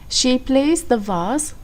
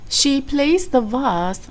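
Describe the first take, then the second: No difference in how they are said.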